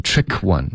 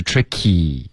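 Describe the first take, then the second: First: "trick one" with the -y of tricky missing; dropped final vowel. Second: "tricky" with a clear long ee ending; full final vowel. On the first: Retold or imitated. Teacher copies student's slip, "trick one" missing its ee. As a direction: drop the ee, straight from "trick" into "one". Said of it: "你发成trick one". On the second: Shown as a demonstration. Teacher corrects student, "tricky" with full ee ending. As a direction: sound out the -y of "tricky" fully. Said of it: "Tricky的这个一丢了".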